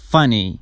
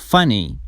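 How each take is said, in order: Both takes have the same delivery.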